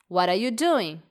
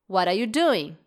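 No difference in how they are said.

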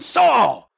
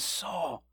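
First: The name is shouted loudly and suddenly. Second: The name is said in a softer tone. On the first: The speaker is angry and yelling. "perhaps he was yelling at him, that there was this sudden" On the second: The speaker is gently getting attention. "almost softens the tone a little bit"

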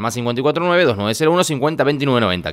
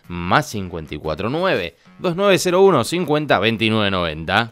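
First: The number is said fast. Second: The number is said slowly.

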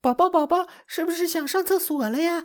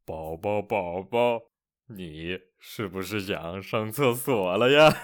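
First: A high, excited, happy baby-talk voice. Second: A changed voice that sounds creepy.

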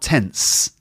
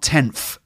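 First: The word ends with an s sound. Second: The word ends with an f sound. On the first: "and not tense either" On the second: "Try not to say tenth, like with a F sound"

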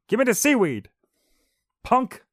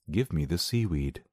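First: It is said with lively, threatening energy. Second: It is said in a flat monotone.

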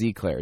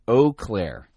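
First: The name sounds like the pastry eclair. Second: The name sounds like 'oh Claire'. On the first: The speaker calls it wrong. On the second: The speaker calls it right.

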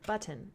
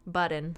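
First: The middle T sound is clearly pronounced. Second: The middle T sound is dropped. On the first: "the double T sound" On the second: "I didn't do like the double T sound"

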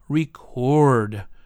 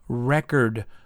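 First: It is pronounced the verb way. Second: It is pronounced the noun way. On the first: It names an action. "or to record" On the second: It names a thing. "when we have a noun and we use it as a verb, the pronunciation will change"

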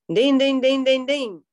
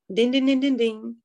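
First: It is said more loudly. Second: It is said quietly.

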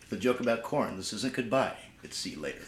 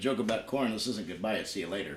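First: It is said a little more slowly. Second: It is said at normal speed.

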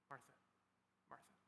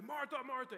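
First: It is whispered gently. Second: It is shouted angrily.

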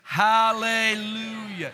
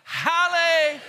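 First: It is said at normal volume. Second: It is shouted loudly.

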